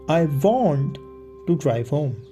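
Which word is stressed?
want. The word "want" is stressed. The speaker insists on really wanting it. "I'm insisting I actually want to do it"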